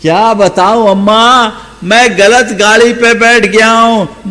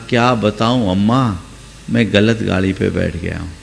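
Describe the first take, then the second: First: Higher, louder despairing wail; louder lament. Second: Softer and lower, a mumbled confession; low, soft lament. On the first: Shown as a demonstration. Preacher replays the young man's confession to the old woman, louder and despairing. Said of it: "repeated for emphasis". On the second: A narrator's reading. Young man quietly confessing to the old woman he boarded the wrong train. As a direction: mutter the confession under his breath. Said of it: "उसने कहा".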